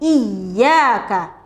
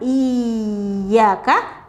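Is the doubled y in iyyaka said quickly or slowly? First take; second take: quickly; slowly. First: The word moves quickly into the y. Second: The word moves slowly into the y. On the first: The speaker calls it right. "dibaca segera" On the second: The speaker calls it wrong. "bukan dengan lambat, bukan iyyaka"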